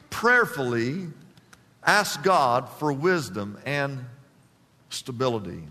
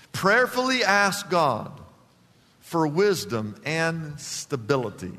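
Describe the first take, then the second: First: Prayerful repeat. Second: Said in the usual way. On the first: Shown as a demonstration. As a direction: let it sink in, slow and hushed.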